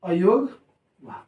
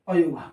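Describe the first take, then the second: First: "अयोगवाह" stretched out slowly, each syllable drawn, rising at the end; "अयोगवाह" said slowly and carefully, with a rising end. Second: Said in the usual way. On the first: Shown as a demonstration. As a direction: spell the word out slowly for the class. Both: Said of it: "क्या?".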